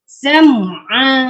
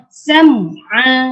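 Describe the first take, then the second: First: The m and ain sounds are kept separate. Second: The same.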